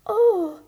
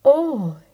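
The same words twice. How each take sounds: First: Delighted oh. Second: Smitten oh. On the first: Thumbelina meets the prince. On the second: Prince answers Thumbelina. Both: Acted.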